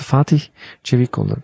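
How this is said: The name is said in an overly careful German way. Germans trying especially hard to say it correctly. "wollen sie halt besonders richtig was sagen"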